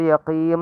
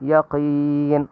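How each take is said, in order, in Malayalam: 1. ഈ വാക്ക് m ശബ്ദത്തിലാണ് അവസാനിക്കുന്നത്. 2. ഈ വാക്ക് n ശബ്ദത്തിലാണ് അവസാനിക്കുന്നത്. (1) "ചിലർ യഖീം എന്നൊക്കെ പറയും. അപ്പോൾ മീമല്ല നൂനാണ്" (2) "അവസാനം നൂനാണ്"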